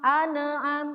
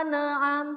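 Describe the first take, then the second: Both takes have the same delivery.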